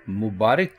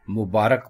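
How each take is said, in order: First: मुबारक with i after r, mubaarik; wrong pronunciation. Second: मुबारक with a after r, mubaarak; correct pronunciation. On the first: Teacher showing the mistaken मुबारक, mubaarik. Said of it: "इसको मुबारक की ना बोलें". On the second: Teacher giving the correct मुबारक, mubaarak. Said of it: "बल्कि इसको मुबारक बोलें". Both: Shown as a demonstration.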